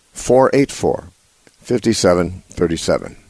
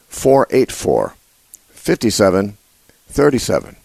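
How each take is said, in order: Both takes have the same delivery.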